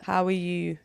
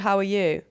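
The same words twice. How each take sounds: First: It is said with weight, as a real question. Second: It is said lightly, as a quick greeting. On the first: The asker really wants to know how you are. "It's so much more intentional" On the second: It is just a way of saying hello. "that's a British way of saying hello"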